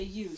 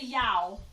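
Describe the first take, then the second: First: The vowel sounds like 'oo' in moon. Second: The vowel sounds like 'ow' in cow. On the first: The speaker calls it right. "we say U" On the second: The speaker calls it wrong. "we don't say yow"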